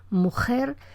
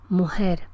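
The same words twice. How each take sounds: First: The middle consonant is a velar fricative. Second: The middle consonant is soft and breathy, like h. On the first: "un fonema velar, las que dicen mujer" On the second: "fricativa, posterior, como aspirada"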